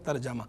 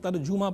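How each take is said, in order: First: The vowel after 'j' is 'a'. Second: The vowel after 'j' is 'u'. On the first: The speaker calls it right. "जीम के ज़बर के साथ है" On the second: The speaker calls it wrong. "गलत तौर पर लोग तर्जुमा पढ़ते रहते हैं"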